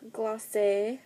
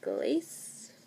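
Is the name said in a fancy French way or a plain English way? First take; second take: fancy French; plain English. First: The name is said in a fancy French way. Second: The name is said in a plain English way. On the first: "but I'm not that fancy" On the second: "so we're going to go with Glace"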